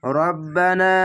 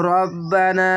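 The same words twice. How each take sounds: First: রব্বানা recited again with the long a held one count; tajweed recitation; one alif stretch. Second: রব্বানা chanted with the long a held one beat; one alif stretch. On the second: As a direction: hold the a in রব্বানা one count. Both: Shown as a demonstration. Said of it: "এক আলিফ টেনে পড়বেন".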